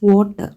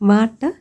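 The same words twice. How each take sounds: First: It begins with a rounded 'w' sound. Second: It begins with a plain 'v' sound. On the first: The speaker calls it right. "വ് എന്നുള്ളത് നമ്മൾ ഡബ്ല്യു വെച്ച് symbolise ചെയ്യുന്ന ആ ഒരു sound" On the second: The speaker calls it wrong. "Substitution of വ് instead of വ്"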